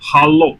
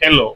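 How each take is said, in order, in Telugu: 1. మొదటి అక్షరం 'ha' లా వినిపిస్తుంది. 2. మొదటి అక్షరం 'he' లా వినిపిస్తుంది. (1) "ఇక్కడ హలో" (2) "ఇంగ్లీష్ అయితే హెలో"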